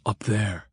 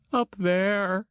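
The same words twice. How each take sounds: First: A lightly voiced Grant, only a little higher; Grant pointing ahead. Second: High, distressed woman's call; Christine crying out. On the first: Grant points ahead to the driver, lightly voiced and casual. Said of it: "Grant leaned in ... pointed ahead". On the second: Acted. Christine desperately points the way to Julio, high and distressed. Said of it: "she cried".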